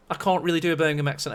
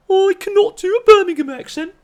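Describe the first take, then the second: First: Said in the usual way. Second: High, loud mock Birmingham accent. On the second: Shown as a demonstration. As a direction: exaggerate a bad Brummie accent, pitched way up.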